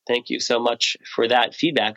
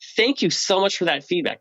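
First: The thanks sounds flat and unemotional. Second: The thanks sounds warm and highly emotional. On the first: The thanks is polite but has little effect. The speaker calls it wrong. "That's one neocortex talking to another" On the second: The thanks is deeply felt and rewards the giver. The speaker calls it right. "Just really emotionally thank them"

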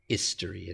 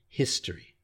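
First: The starting H sound is dropped. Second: The starting H sound is pronounced. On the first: The speaker calls it wrong. "It's not history" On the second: The speaker calls it right. "it's history"

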